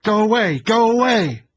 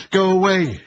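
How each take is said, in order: First: Screaming high and loud, repeated; wild shout. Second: Screaming high and loud at the door; wild shout. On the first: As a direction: yell it over and over in panic. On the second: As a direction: yell it out in panic. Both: A narrator's reading. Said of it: "she shouted wildly".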